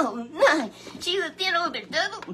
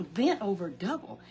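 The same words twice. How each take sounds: First: High, loud shocked cry then question; astonished gasp. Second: Said in the usual way. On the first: Acted. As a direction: gasp it out in disbelief. Puppet gasps at the story.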